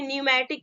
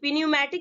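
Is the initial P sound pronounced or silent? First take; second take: silent; pronounced. First: The initial P sound is silent. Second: The initial P sound is pronounced. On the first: The speaker calls it right. "न्यूमैटिक पढ़ेंगे" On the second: The speaker calls it wrong. "पिन्यूमैटिक नहीं पढ़ेगी"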